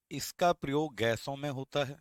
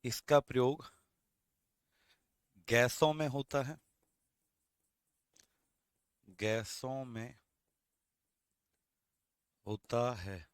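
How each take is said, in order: First: Said in the usual way. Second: Broken into chunks with long pauses; slow dictation. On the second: Shown as a demonstration. Teacher dictating the line to students in slow chunks. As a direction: dictate it slowly in pieces. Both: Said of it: "तो आप क्या लिखेंगे?".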